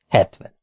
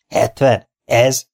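First: Said in the usual way. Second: Questioning the price, a touch scoffing; bargaining buyer, mildly disbelieving; incredulous. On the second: Acted. Buyer scoffing at the asking price, mild disbelief.

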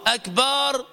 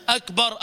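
First: "أكبر" as "akbaar"; lengthened A. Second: "أكبر" as short "akbar". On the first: Teacher explaining a meaning-changing error, long final A. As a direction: stretch the last vowel of أكبر. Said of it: "قول علماء اللغة". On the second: Teacher giving the word meaning greatest, short A. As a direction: keep the last vowel of أكبر brief. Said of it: "بدلا من أن تصف ربك". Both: Shown as a demonstration.

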